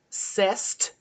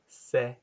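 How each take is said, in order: First: A T sound is pronounced at the end. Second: No T sound is pronounced at the end. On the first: The speaker calls it wrong. "I'm going to poorly pronounce each line" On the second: The speaker calls it right. "you don't pronounce the T"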